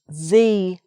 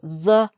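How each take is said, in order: First: The vowel is long and full, like 'thee'. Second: The vowel is short and weak, like 'thuh'. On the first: "I is a vowel sound. So it's the Irish Sea" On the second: "the goes before a consonant sound"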